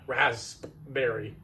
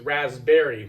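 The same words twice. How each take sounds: First: The P sound in the middle is pronounced. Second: The P sound in the middle is silent. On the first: Nobody actually says it this way. The speaker calls it wrong. "there's a P in the rasp raspberry, ... nobody ever pronounces it that way" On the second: This is how everyone normally says it. The speaker calls it right. "It's always raspberry"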